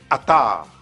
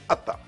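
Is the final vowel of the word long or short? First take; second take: long; short. First: The last vowel is held long. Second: The last vowel is short.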